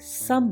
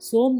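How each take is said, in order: First: The vowel is a short uh sound. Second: The vowel is a long o sound. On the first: The speaker calls it right. "सम बनता है" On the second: The speaker calls it wrong. "सोम ना बन के"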